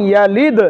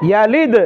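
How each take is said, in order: The two takes are said the same way.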